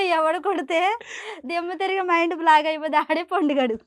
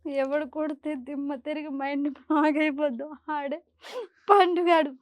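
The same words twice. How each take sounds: First: It is said while laughing softly. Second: It is said while crying.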